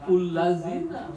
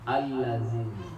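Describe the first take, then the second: First: The word begins with an u vowel. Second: The word begins with an a vowel. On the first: The speaker calls it wrong. "Bukan ullazina" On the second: The speaker calls it right. "jangan ragu a-nya dibaca al"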